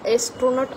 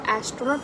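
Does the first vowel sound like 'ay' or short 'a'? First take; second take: ay; short a. First: The first vowel sounds like 'ay' in 'day'. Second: The first vowel sounds like short 'a' in 'cat'. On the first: The speaker calls it wrong. "A for एस्ट्रॉनॉट असं नाही म्हणत आहोत" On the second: The speaker calls it right. "A for ॲस्ट्रॉनॉट म्हणत आहोत"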